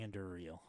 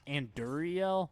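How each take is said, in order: First: The word ends with a short 'ril' sound. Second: The word ends with a drawn-out 'ree-el' sound. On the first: It matches the written spelling. The speaker calls it right. "but it's R I L, so it must be" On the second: Someone else says it this way. The speaker calls it wrong. "I've heard some people say like"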